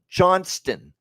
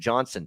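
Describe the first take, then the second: First: The name is said with a T sound. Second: The name is said without a T sound. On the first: The speaker calls it right. "There's a T in that last name" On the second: The speaker calls it wrong. "drives me nuts when I hear Johnson"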